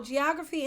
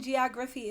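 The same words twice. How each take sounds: First: Said in the usual way. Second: "geography" said like somebody's name; the friend's odd version of "geography"; mispronounced geography. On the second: Shown as a demonstration. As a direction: demonstrate the wrong "geography". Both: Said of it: "geography and geography is not the same".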